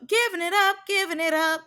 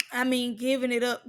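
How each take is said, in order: First: Giving it up jumped high with a rising tune; giving pitched high and rising, teasing; high, sing-song emphasis. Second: Said in the usual way. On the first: Shown as a demonstration. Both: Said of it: "repeated with rising emphasis".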